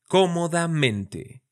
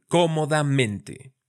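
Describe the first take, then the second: First: "Cómodamente" slow, stressing CO and MEN; primary and secondary stress. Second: Said in the usual way. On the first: Shown as a demonstration. Teacher demonstrating secondary stress to students. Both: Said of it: "Ahí en el co y en el men".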